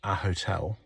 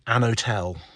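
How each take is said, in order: First: The h sound is pronounced after a. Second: The h sound is dropped after an. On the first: The speaker calls it right. "which is what I would say" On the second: The speaker calls it wrong. "so they they drop the H"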